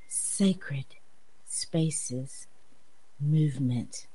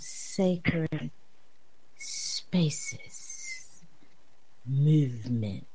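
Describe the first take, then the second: First: The phrase is said at a normal pace. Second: The phrase is said slowly and deliberately.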